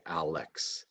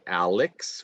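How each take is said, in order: First: Alex with the second vowel reduced to schwa, said softer; quiet natural Alex with an uh in the middle. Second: Alex with a clear full e in the second syllable; careful overpronounced Alex; full vowels. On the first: Teacher modeling the right way to students: softer Alex with schwa. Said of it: "we say Alex". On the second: Teacher showing students the wrong way: Alex with a full e. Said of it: "We don't say Alex". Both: Shown as a demonstration.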